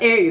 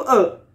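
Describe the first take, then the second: First: The vowel is a plain e sound. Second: The vowel blends e and u together. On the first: This is how Sumatrans read it. "Kalau orang Sumatera itu baca E" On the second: This is how Sundanese people read it. "kalau orang Sunda itu E. E sama U itu digabung"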